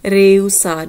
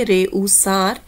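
First: Rehusar louder with the h silent. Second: Said in the usual way. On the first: Shown as a demonstration. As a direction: say rehusar as reusar, punched. (rehusar ਵਿੱਚ ਐਚ ਚੁੱਪ, ਉੱਚਾ ਬੋਲੋ) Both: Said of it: "ਐਚ ਹੈ ... ਬਿਲਕੁਲ silent ਹੈ".

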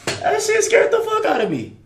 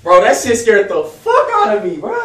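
First: High-pitched shaken exclamation. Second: Loud, rattled exclamation; still shaken. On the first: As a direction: voice jumps up after a scare. Jump scare in horror game. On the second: Retelling jump scare. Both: Real, not acted.

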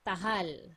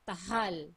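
Both takes have the same delivery.

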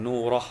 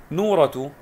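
First: نورة read "nuurah" with silent case ending; pausal ending. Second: نورة read "nuuratu" with voweled final t; full ending. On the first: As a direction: end نورة on "ah", no t. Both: Shown as a demonstration. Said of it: "لو سكناها تكون نورة".

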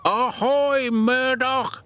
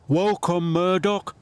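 First: High, loud ahoy shout; old dock engine hailing the newcomer loudly; hearty shout. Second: Bright, raised welcome; friendly call. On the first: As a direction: hail him like a sailor. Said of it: "shouted Salty". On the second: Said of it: "called Harvey". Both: Acted.

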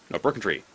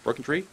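First: Said in the usual way. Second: "Broken tree" high with a rising question tune; questioning rise. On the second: Real, not acted. Player unsure of the landmark, "Broken tree" as a rising question. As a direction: ask "Broken tree" in doubt, pitch lifting at the end.

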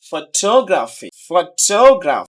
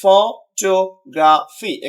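First: "photography" with stress on টো; stress on third-last. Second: "photography" slowly as ফ, টো, গ্রা, ফি; four separate syllables. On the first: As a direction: hit and stretch টো in "photography". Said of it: "আপনি এইখানে stress দিবেন". ("ফটোগ্রাফি"-র টো-তে জোর) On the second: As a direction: break "photography" into slow, even pieces. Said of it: "চারটা syllable রয়েছে". ("Photography" ধীরে ভেঙে ভেঙে) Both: Shown as a demonstration.

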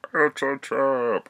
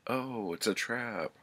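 First: Higher, louder, slow hammed-up warning cry; alarmed shout. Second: Higher, quick alarmed realisation; realising a trap. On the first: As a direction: bellow the warning, dragging it out. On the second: Retold or imitated. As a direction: catch on to the ambush with a jolt. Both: [name] realises the ambush.

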